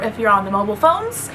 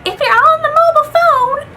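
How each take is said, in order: First: Said in the usual way. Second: Put-on very high, loud old-lady voice; mock yourself as an old woman, pitched way up and held high; exaggerated shrieky old woman impression. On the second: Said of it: "I sound like an old woman".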